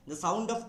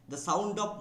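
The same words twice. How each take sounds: The two takes are said the same way.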